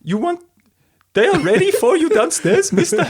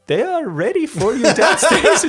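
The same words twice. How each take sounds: First: Very high, loud, lilting mock-Swiss accent; comic Swiss accent swooping up and down. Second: High, loud attempt at a Swiss butler accent; hammed-up Swiss butler, much higher pitch. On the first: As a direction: ham up a sing-song Swiss butler accent. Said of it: "it's kinda up and down". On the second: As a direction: put on a comic Swiss accent. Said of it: "A butler with a Swiss accent enters the room".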